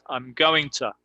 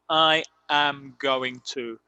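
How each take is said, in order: First: I am is contracted to I'm. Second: I am is said as two full words. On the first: The speaker calls it right. "it's I'm going to" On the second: The speaker calls it wrong. "nadie dice I am going to"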